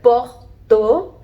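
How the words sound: It is said the French way, sounding like porto. "Even in French"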